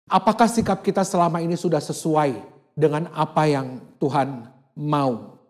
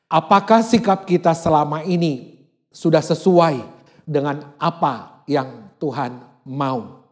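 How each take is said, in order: First: The question is spoken at a normal pace. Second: The question is spoken slowly and deliberately.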